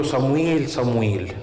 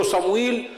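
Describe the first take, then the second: First: Lightly teasing hide-and-seek call; playful calling. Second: Said in the usual way. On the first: Retold or imitated. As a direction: call the name teasingly, as if into an ear. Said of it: "زي ما يكون بيلعب معاه اللي بنسميه بالمصري استغماية". (نداء خفيف كأنه لعبة استغماية)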